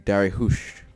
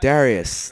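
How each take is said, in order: First: The name ends with an sh sound. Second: The name ends with a plain s sound.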